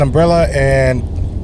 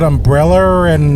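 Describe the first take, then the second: First: The words join with no added R sound. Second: An R sound links the two words. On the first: "connecting that to like" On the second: "People in uh, that speak an Australian accent go"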